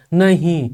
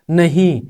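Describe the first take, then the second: First: नहीं said as two beats, न then हीं; split into syllables. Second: Said in the usual way. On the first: Shown as a demonstration. Teacher showing two flows in नहीं, split into syllables. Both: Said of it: "अब नहीं में दो flow हैं".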